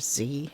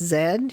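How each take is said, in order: First: The letter is said the American way, zee. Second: The letter is said the British way, zed.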